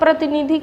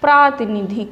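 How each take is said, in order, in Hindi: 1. पहला स्वर छोटा है। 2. पहला स्वर लंबा है। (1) "प्रतिनिधिक नहीं होगा" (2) "प्रातिनिधिक होगा, ऐसे शुद्ध होगा"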